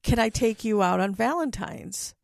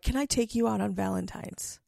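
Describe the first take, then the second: First: It is said in a cheery tone. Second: It is said in a plain, uncheery tone.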